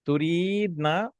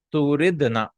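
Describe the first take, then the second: First: "Turidna" slow, with a long drawn-out "ee"; ya kept long. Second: "turidna" with a short i, ya dropped. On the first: Teacher showing why ya drops, long "ee" held in "Turidna". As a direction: stretch the middle of "Turidna" as "tureeed-na", higher. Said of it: "and ya also has a sukoon". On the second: Teacher showing the conjugated form, short vowel in "turidna". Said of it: "the ya was dropped". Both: Shown as a demonstration.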